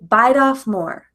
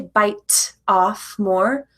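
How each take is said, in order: First: The t is flapped, linking bite into off. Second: The t in bite is a clear, separate t. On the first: The speaker calls it right. "Bite and off connect together, and that T changes its sound" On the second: The speaker calls it wrong. "We don't say bite off more"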